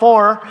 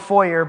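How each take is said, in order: First: It is said the Texan way, like four. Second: It is said the standard way, as foyer.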